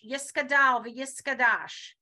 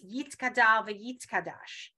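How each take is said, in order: First: The letter is pronounced with an s sound. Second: The letter is pronounced with a t sound. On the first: "they will pronounce this one without the dot as a s" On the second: This follows modern Hebrew pronunciation. "even though it's"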